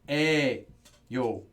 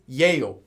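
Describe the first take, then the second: First: The word begins with a plain e vowel. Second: The word begins with a y sound. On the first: The speaker calls it right. "Everyone says eh, yo" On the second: The speaker calls it wrong. "No one says yeyo"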